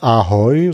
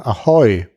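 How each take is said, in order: First: The stress is on the first syllable. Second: The stress is on the second syllable.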